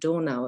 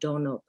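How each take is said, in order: First: The word is said with German pronunciation. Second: The word is said with non-German pronunciation. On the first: The speaker calls it right. "in Germany we would pronounce it Donau" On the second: The speaker calls it wrong. "and not Donau"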